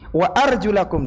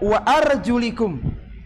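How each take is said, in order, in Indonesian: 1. Vokal setelah arjul adalah bunyi a. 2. Vokal setelah arjul adalah bunyi i. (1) "dibaca fathah" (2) "ada ulama qiraat yang membaca wa arjulikum"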